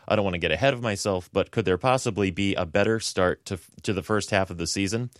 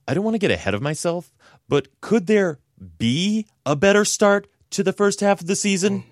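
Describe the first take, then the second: First: It is read in his ordinary voice. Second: It is read imitating Chandler's voice.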